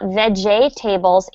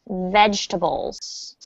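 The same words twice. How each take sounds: First: The word is said with four syllables. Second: The word is said with three syllables. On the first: The speaker calls it wrong. "It's not vegetables" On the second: The speaker calls it right. "it's just vegetables"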